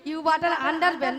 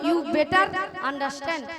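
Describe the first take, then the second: First: The phrase ends with 'butter under ben'. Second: The phrase ends with 'better understand'. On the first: The speaker calls it wrong. "You বাটার আন্ডার বেন নয়" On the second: The speaker calls it right. "বলো"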